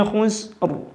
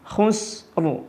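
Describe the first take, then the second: No difference in how they are said.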